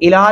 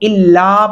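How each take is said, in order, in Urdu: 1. L کی آواز ایک ہے اور چھوٹی ہے۔ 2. L کی آواز دوہری ہے اور لمبی روکی جاتی ہے۔ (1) "الہ نہیں پڑھنا" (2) "اس کو الا پڑھیں گے"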